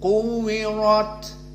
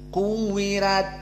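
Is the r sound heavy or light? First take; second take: heavy; light. First: The r is pronounced heavy and full. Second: The r is pronounced light and thin. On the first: "ro ro maka mufakhomah" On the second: "berarti tarqiq"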